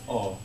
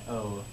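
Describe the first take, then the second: First: The vowel stays one steady sound. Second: The vowel glides into a second sound. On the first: The speaker calls it right. "but it's just oh" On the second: The speaker calls it wrong. "You don't need the extra diphthong"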